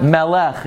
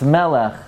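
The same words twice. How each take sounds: First: Melech with the stress wrongly on LECH; mispronounced Melech. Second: Melech with the stress on ME; correct Melech. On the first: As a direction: say me-LECH, leaning on the last syllable. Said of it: "It's not Melech". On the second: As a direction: say ME-lech, keeping the second syllable light. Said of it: "it's Melech". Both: Shown as a demonstration.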